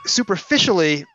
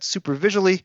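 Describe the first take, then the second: First: The middle sounds like 'fish'. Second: The middle sounds like 'visual'. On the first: The speaker calls it right. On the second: The speaker calls it wrong.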